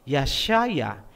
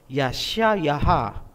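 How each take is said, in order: First: It ends after the third syllable. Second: It adds a final fourth syllable. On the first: The speaker calls it right. "Ang pangalan ni Isaiah sa Hebrew ay Yashaya" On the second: The speaker calls it wrong. "hindi po Yashayaha"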